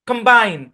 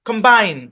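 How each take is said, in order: The two takes are said the same way.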